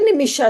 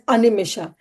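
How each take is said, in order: First: The word starts with an 'n' sound. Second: The word starts with an 'a' vowel. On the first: The speaker calls it right. "We say Naimishe Nimisha Kshetre" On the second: The speaker calls it wrong. "we don't pronounce as Animisha"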